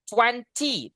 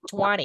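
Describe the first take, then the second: First: The T after N is clearly pronounced. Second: The T after N is dropped, American style.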